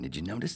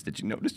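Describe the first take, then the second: First: Said in the usual way. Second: Whispered repeat. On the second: Shown as a demonstration. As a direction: whisper the question.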